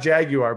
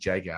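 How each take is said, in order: First: The word is said with an American pronunciation. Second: The word is said with a British pronunciation. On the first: "Not not Jaguar" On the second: "like the way they say it in, in England"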